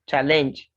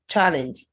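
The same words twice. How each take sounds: First: The stress is on the second syllable. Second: The stress is on the first syllable. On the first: The speaker calls it wrong. "It's not challenge as a verb" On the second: The speaker calls it right. "Whether it's a noun or a verb, this word is challenge"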